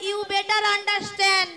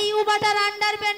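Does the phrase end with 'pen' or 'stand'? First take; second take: stand; pen. First: The phrase is clear and ends in 'stand'. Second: The phrase is garbled and ends in 'pen'. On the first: The speaker calls it right. "বলো you বেটার আন্ডারস্ট্যান্ড" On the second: The speaker calls it wrong. "ওটা you বাটার আন্ডার পেন নয়"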